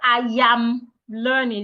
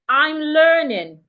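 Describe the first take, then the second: First: A y sound links into am. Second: It is contracted with no y sound. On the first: The speaker calls it wrong. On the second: The speaker calls it right.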